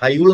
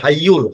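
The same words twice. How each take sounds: First: The y sound is short and single. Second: The y sound is doubled and held. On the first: The speaker calls it wrong. "হাইয়ুল না" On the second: The speaker calls it right. "ইয়ার উপরে আপনার তারদিদ আছে"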